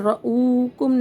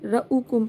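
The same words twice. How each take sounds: First: The 'u' vowel is stretched out long. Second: The 'u' vowel is kept short. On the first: The speaker calls it wrong. "रऊकुम नहीं पढ़ेंगे" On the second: The speaker calls it right. "रऊकुम पढ़ेंगे क्योंकि वाव के ऊपर साकिन नहीं है"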